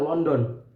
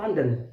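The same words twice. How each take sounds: First: London is pronounced with Indonesian-style sounds. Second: London is pronounced with English-style sounds. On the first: The speaker calls it wrong. "London dibilang London" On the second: The speaker calls it right. "padahal pengucapan sebenarnya itu London"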